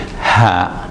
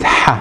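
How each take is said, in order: First: It has a light, plain English h sound. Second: It has a harsh, breathy h from the throat. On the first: The speaker calls it wrong. "try to pronounce it as you would the H" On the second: The speaker calls it right. "more appropriate"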